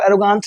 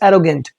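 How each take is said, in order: First: The last syllable has a long 'aa' vowel. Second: The last syllable has a short 'e' vowel. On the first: The speaker calls it wrong. "गांठ नहीं बोलेंगे आप इसको, एरोगांट नहीं" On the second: The speaker calls it right. "It is एरोगेंट"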